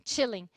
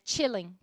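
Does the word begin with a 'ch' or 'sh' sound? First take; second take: ch; ch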